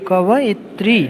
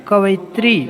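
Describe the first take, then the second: No difference in how they are said.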